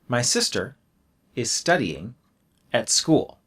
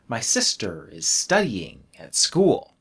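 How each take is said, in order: First: There is a silent pause between the phrases. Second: A word is stretched out with no silence. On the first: "I can pause" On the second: "I don't stop. I make it long"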